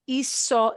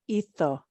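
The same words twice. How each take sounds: First: It is said with a Latin American s sound. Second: It is said with a Castilian Spanish pronunciation. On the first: "This will not be hizo" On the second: "it'll be pronounced hizo"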